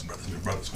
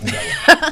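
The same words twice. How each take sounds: First: Whispered, much softer brothers. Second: High. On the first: Teasing his friends in a playful whisper. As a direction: breathe the words playfully. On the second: Teasing his friends, suddenly high and loud. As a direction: jump high and loud on brothers. Playful repetition of brothers. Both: Shown as a demonstration.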